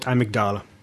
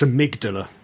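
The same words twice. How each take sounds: First: The word is said with a shifted stress pattern. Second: The word is said with its standard stress pattern. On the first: The speaker calls it wrong. "not amygdala. Mispronouncing that part of the brain" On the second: The speaker calls it right. "it's amygdala"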